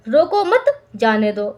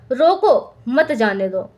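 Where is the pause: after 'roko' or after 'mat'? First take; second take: after mat; after roko. First: There is a pause after the second word. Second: There is a pause after the first word. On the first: Do not stop the person; let them go. "मुझे रोको मत, मुझे जाने दो" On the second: Stop the person; do not let them go. "मतलब रोक लो मत जाने दो"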